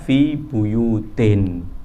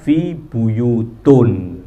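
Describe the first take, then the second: First: The second word ends with an 'in' sound. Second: The second word ends with an 'un' sound. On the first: The noun is in the genitive case after fi. The speaker calls it right. "Karenanya fi buyutin" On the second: The noun is in the nominative case. The speaker calls it wrong. "Tidak boleh kita baca fi buyutun, tidak boleh"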